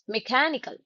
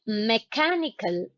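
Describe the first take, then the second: First: The unstressed vowel is reduced to uh. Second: The unstressed vowel is a full vowel. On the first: The speaker calls it right. "So here we get the sound uh" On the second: The speaker calls it wrong. "It is not mechanical"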